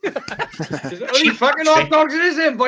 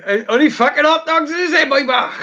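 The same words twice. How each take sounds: First: Put-on Welsh accent. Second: High, laughing Welsh film quote; Welsh accent. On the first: Friend quoting a Twin Town line in a laughing Welsh accent. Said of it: "You remind me of something off Twin Town". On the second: Retold or imitated. Friend repeating a Twin Town quote in a laughing Welsh accent. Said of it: "you reminded me of someone off Twin Town".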